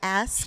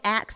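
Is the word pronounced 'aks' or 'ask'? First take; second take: ask; aks. First: The s sound comes before the k. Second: The k sound comes before the s. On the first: This is how the speaker says it. "I say ask" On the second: This is how the other person says it. "you say ax"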